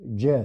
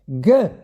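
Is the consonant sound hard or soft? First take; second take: soft; hard. First: The consonant is said light and soft. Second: The consonant is said heavy and hard. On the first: The letter has no dagesh. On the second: The letter carries a dagesh.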